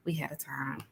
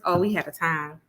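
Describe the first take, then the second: First: Breathy whisper of a fond memory. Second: Said in the usual way. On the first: Real, not acted. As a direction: whisper it like a secret you treasure. Fond memory repeated softly.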